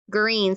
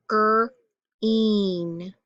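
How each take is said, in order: First: Said in the usual way. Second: "Green" split into two stretched sounds, gr... een; sounded out. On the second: Shown as a demonstration. Teacher helping pupils read a colour word, sounded out. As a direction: sound out "Green" slowly with a gap after the gr.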